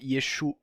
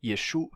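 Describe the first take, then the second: The two takes are said the same way.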